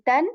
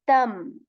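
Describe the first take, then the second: First: The syllable ends with a clear n sound. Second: The syllable ends with an m sound. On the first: The speaker calls it wrong. "rather than saying tan, the full uh, Tanween" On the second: The speaker calls it right. "we will just enter the Tanween into the meme here"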